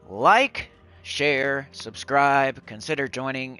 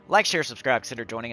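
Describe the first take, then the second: First: It is said at a normal pace. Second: It is said at a fast pace.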